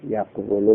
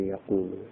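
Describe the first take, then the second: First: The q closes the first syllable, then wu follows. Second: The q opens the second syllable with a long u. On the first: This is the underlying original form of the word. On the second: This is the form after the vowel shifts back.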